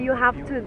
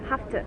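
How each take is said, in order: First: Every sound of 'have to' is pronounced in full. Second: 'Have to' is squeezed into a short 'hafta'. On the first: "They don't say you have to" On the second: "They say have to"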